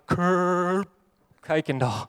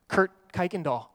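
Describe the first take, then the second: First: The name is said hesitantly, trailing off. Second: The name is said loudly and confidently. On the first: "I tried to catch it as it came out" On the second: "I confidently respond"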